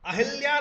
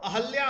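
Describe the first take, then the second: First: The second vowel is 'i'. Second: The second vowel is 'a'. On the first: The speaker calls it wrong. "नहीं होता दोस्तों" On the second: The speaker calls it right. "होता है"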